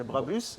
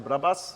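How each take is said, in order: First: It is said with a French accent. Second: It is said with a Japanese accent. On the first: "in France they say Brabus" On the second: "in Japan they say Brabus"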